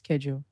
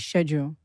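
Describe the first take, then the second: First: The word is said with an American pronunciation. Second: The word is said with a British pronunciation. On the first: "If you're using like American" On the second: "If you're using British"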